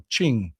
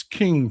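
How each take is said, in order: First: Ching with a CH sound at the start; corrected pronunciation. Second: King with a hard K sound; pronounced as spelled. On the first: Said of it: "pronounced, uh". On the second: Streamer reading out a viewer's correction, hard K in King. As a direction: say King, starting on a K. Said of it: "pronounced, uh, Ching". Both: Shown as a demonstration.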